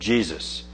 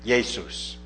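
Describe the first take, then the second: First: The name begins with a J sound. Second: The name begins with a Y sound. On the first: This is the modern English pronunciation. "the current English pronunciation of Jesus" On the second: This is the older and German pronunciation. "still pronounced like the German J, with more of a Y sound"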